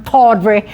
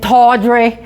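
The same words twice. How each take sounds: First: Said in the usual way. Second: Put-on tawdry in a light Boston accent, dropped r, long open aw. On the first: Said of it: "isn't that a word you use all the time". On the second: Echoing the Boston dealer's word, in a light Boston accent. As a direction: echo tawdry the Boston way, tawdry with a broad aw and no r. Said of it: "that Boston accent".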